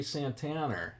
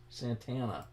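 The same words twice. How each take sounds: First: Boston accent with an R added at the end of "Santana". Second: Said in the usual way. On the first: Real, not acted. Streamer slips while chatting to viewers, Boston accent. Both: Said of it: "that was my Boston accent".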